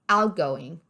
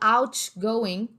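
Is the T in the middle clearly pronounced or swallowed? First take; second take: swallowed; pronounced. First: The middle T is swallowed, barely heard. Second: The middle T is clearly pronounced. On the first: The speaker calls it right. "a gente acaba comendo esse T. Engole ele aí" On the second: The speaker calls it wrong. "Ao invés de falar"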